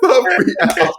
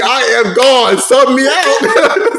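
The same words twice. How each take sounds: First: Much higher, slow, laughing through it. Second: Slow, higher voice of a beaten player, giving up; defeated player quitting. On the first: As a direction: repeat it cracking up. Repeats the quote, laughing. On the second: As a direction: plead to be subbed out, half laughing. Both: Retold or imitated.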